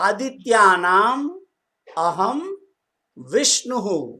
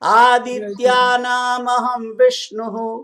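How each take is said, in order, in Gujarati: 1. શબ્દો અલગ પાડીને અલગ અલગ બોલાય છે. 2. શબ્દો કોઈ વિરામ વગર એકસાથે જોડાઈને બોલાય છે.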